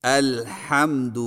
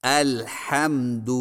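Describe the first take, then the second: Both takes have the same delivery.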